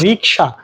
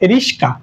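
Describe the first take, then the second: First: The consonants come in the order k then sh. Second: The consonants are swapped, giving s then k. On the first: "জাপানি একটি শব্দ হচ্ছে রিকশা" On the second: "একটু বিকৃত করে বলি"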